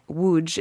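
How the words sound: The name is pronounced the Polish way.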